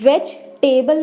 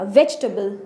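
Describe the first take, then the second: First: The ending is said in full as 'table'. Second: The ending is reduced to a short 'tbl'. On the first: The speaker calls it wrong. "वेज टेबल नहीं बोलना" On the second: The speaker calls it right. "इसकी सही pronunciation है वेजिटेबल"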